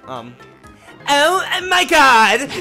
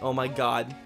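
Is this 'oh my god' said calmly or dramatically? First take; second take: dramatically; calmly. First: It is said in an exaggerated, flamboyant way. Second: It is said in a fairly plain, mild way. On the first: "let me try it harder" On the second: "I'd be like"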